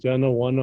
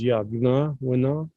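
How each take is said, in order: First: The name is said as one smooth word. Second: The name is said as two parts. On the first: This is how people say it today without knowing the language. The speaker calls it wrong. "the way you read it nowadays, the way everybody's using it" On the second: This is how the original language says it. The speaker calls it right. "the correct way of saying is"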